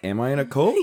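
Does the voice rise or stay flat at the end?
rise. The voice rises at the end.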